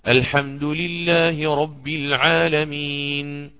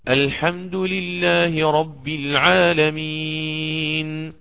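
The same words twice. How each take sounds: First: The vowel before the final n is held briefly. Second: The vowel before the final n is held moderately. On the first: "وقفت عليها بالقصر" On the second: "بالتوسط"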